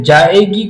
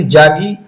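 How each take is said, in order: First: Said in the usual way. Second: جاگی said as jaagi, the two vowels collapsed; جاگی as jaagi, Calcutta Urdu; Kolkata Urdu vowel merge. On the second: Shown as a demonstration. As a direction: squeeze جاگی into two syllables, jaa-gi. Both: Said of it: "جائے گی کو وہ بولتے ہیں جاگی".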